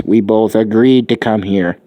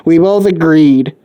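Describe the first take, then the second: First: Said in the usual way. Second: "We both agreed" louder, slower, leaning on "both"; stress on both. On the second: Acted. Izuku insisting to the mother, pressing "both" hard. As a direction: hammer "both" home, slowly and firmly.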